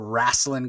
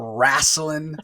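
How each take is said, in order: First: The word is said in the ordinary standard way. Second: The word is said in an imitated old-fashioned variant.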